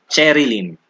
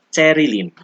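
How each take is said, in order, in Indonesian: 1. Diucapkan dengan bunyi bahasa Inggris. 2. Diucapkan dengan bunyi bahasa Tagalog.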